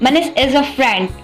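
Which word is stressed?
friend. The stress falls on the word friend. He is a friend, not an enemy. "Not इन मी"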